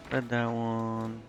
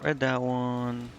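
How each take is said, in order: Both takes have the same delivery.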